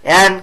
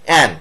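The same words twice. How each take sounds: The two takes are said the same way.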